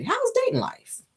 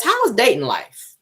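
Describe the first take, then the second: First: Squeaky falsetto take of the question; high put-on voice. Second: Said in the usual way. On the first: Shown as a demonstration. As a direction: pitch it way up, playful. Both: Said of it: "I like to do my impressions".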